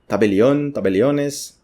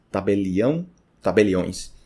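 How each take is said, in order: First: "tabelião" as ta-be-li-ÓN; "tabeliões" as Spanish ta-be-li-Ó-nes; Spanish pronunciation. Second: "tabelião" ending in nasal ÃO; "tabeliões" ending in nasal õis; Portuguese pronunciation. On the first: Teacher reads the Spanish words, Spanish pronunciation. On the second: Teacher gives Portuguese equivalents, Portuguese pronunciation. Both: Shown as a demonstration. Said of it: "aí tem".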